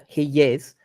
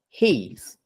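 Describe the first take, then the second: First: Two separate words joined by a y glide. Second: One contracted syllable with no glide. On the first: "where I'm using that y" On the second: "I can just say he's"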